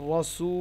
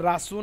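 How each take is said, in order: First: রসু with a thick rounded "raw"; heavy Ra. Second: রাসু with a light open "raa"; thin Ra. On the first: Teacher answers what it should be, রসু with heavy Ra. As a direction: say রসু from a full, dark R. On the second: Teacher shows what it should not be, রাসু with thin Ra. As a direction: say রাসু with a flat first vowel. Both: Shown as a demonstration. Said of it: "রাসু না হয় কি হবে".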